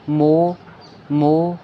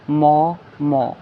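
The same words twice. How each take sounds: First: "मो" with a closed, held o; "मो" drawn out like mow; small o vowel. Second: "मो" with an open aw sound; "मो" held on an open au; big au vowel. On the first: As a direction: round and stretch "मो". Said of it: "छोटा ओ". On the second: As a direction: open "मो" out to maw. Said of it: "बड़ा ओ". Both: Shown as a demonstration.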